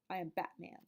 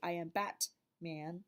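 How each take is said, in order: First: The T is a glottal stop in the throat. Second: The T is a fully released T sound. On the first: The speaker calls it right. "it kind of disappears again in the back of your mouth" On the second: The speaker calls it wrong. "he doesn't say I am Batman"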